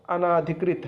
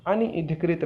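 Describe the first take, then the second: First: अनाधिकृत as "a-naa-dhikrit"; long "naa" syllable. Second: अनधिकृत as "a-ni-dhikrit"; wrong "ni" syllable. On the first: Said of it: "अनधिकृत नहीं है". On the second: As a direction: put an i after n in अनधिकृत. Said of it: "अनाधिकृत है". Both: Shown as a demonstration.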